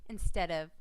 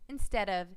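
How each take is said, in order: The two takes are said the same way.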